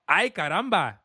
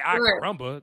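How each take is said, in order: First: The R in Caramba is rolled. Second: The R in Caramba is not rolled. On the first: The speaker calls it right. "You got to say it like that" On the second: The speaker calls it wrong. "You can't just say"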